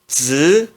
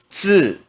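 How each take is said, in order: First: The pitch rises from middle to high. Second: The pitch falls sharply from high. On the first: "No segundo tom se pronuncia z" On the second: "E no quarto tom"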